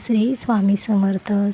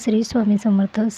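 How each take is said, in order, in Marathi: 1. तो स्पष्ट आवाजात मोठ्याने म्हटला जातो. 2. तो हळू आवाजात पुटपुटत म्हटला जातो. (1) "पहिली पद्धत आहे वाचिका" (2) "म्हणजे पुटपुटत"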